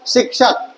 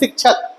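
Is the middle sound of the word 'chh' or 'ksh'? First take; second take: ksh; chh. First: The middle sound is said as 'ksh'. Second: The middle sound is said as 'chh'. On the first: This follows the written letter combination. "Correct जो वर्णों का संयोजन है उसके according" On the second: This is how it is commonly read. "जो बच्चे इसको छा पढ़ रहे हैं"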